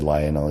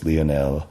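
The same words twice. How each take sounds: First: The name is said the English way. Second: The name is said the French way. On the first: The speaker calls it wrong. "I said Lionel" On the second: The speaker calls it right. "it's Lionel"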